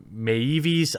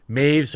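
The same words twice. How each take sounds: First: "Maeves" stretched out longer; alternative pronunciation attempt. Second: "Maeves" said the shorter way; first pronunciation attempt. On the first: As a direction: draw out "Maeves" as a second guess. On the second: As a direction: say "Maeves" briefly, as a first guess. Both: Shown as a demonstration. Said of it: "not sure exactly how it's pronounced".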